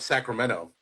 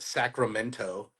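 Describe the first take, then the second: First: The T sound is dropped. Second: The T sound is clearly pronounced. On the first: This is how locals say it. "We call it ... we don't pronounce our T's" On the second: This is how outsiders say it. "we don't call it"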